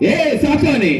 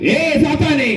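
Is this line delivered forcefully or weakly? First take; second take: weakly; forcefully. First: It is said with little force or punch. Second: It is said with more force and punch. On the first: The command does not sound convincing. The speaker calls it wrong. "ഇങ്ങനെ പറഞ്ഞാൽ പോവാൻ തോന്നില്ല" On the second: The command sounds convincing. The speaker calls it right. "കുറച്ചുകൂടെ പഞ്ചിന് പറ"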